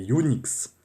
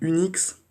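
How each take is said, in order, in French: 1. Ça commence par un son 'you', un glissement en y. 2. Ça commence par un 'u' voyelle français simple. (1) "la vraie prononciation ... comme s'il y avait un Y et un U" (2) "c'est pas comme ça qu'on prononce mon pseudo"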